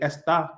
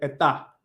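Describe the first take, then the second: First: The s sound is clearly pronounced. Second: The s sound is left out entirely. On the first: "I don't have to say" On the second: "I can say ... completely cut the s out"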